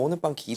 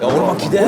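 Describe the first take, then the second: First: It sounds coy and sly. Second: It sounds urgent and eager.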